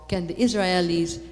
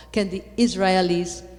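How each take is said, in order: Both takes have the same delivery.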